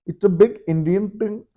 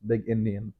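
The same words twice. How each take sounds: First: Put-on a quick jokey Indian accent, pitched higher. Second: Said in the usual way. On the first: Trying out his Indian accent on viewers, mock Indian accent. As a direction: toss off the line in a light Indian accent. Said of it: "You can do Indian accent". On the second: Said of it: "it's okay if I do it in a, not a racist way".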